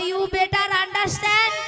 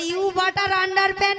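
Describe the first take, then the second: First: It sounds like 'better understand'. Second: It sounds like 'butter under pant'. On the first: The speaker calls it right. "বলো" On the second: The speaker calls it wrong. "ওটা you বাটার আন্ডার প্যান্ট নয়"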